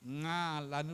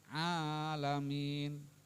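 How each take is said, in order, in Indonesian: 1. Diawali dengan bunyi sengau ng. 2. Diawali dengan bunyi dari tenggorokan. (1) "Ngalamin bukan ya" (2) "Huruf ain makhrajnya di tengah tenggorokan"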